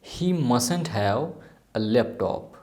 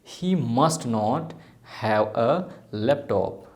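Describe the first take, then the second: First: Must and not are merged into mustn't. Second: Must and not are said as two words.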